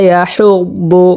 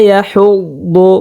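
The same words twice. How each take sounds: The two takes are said the same way.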